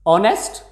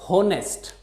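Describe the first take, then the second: First: The word begins with no H sound. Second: The word begins with an audible H sound.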